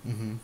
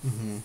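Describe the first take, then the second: No difference in how they are said.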